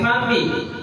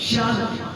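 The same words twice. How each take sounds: First: The first consonant is made at the teeth. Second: The first consonant has a whistling sound. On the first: The speaker calls it wrong. "तो दंती सा हो गया, यानी आपका उच्चारण गलत हो गया" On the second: The speaker calls it right. "आवाज है सीटी की"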